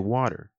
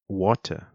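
First: It has an American accent with a soft D. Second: It has a British accent with a hard T. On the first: "In an American accent, you would say water. So you're kind of turning that T sound into a D sound" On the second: "In the British accent, you would say water"

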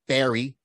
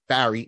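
First: The name is said like the word berry. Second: The name is said with its intended vowel. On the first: The speaker calls it wrong. "not Barry, two different things" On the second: The speaker calls it right. "when I say Barry, it's Barry"

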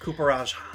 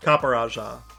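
First: The first part does not sound like 'copper'. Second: The first part sounds like 'copper'. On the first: The speaker calls it wrong. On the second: The speaker calls it right.

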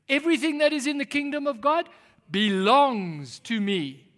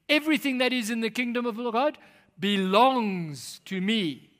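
First: It is said forcefully, with strong conviction. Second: It is said plainly, without strong conviction. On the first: "Let's say it like we mean it" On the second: "say it with me"

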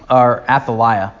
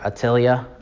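First: The name is said with an English pronunciation. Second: The name is said with a Hebrew pronunciation. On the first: "I think that's the way that most English speakers pronounce it" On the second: "I think in Hebrew, when I read it, I'd pronounce it like"

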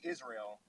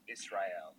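First: The S sound is said plainly, without emphasis. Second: The S sound is strongly emphasized. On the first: "I say Israel" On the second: "you emphasize that S there. You were like Israel"

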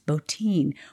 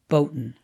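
First: The name ends with an 'een' sound. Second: The name ends with an 'in' sound. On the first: This is how the name's bearer pronounces it. The speaker calls it right. "that's how you pronounce that name" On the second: This is how the name looks when read cold. The speaker calls it wrong. "sounds a lot better than Boutin"

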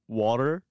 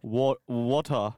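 First: It is said with an American accent. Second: It is said with an Australian accent. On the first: The speaker calls it wrong. "When I came here, I would say water" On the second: The speaker calls it right. "you need to start pronouncing ER as A. And I'm like"

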